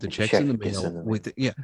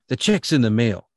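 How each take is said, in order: First: It is said in a casual, relaxed way. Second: It is said with extra force and energy. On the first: "But I'm like, hey man" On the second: "you gotta get a little oomph"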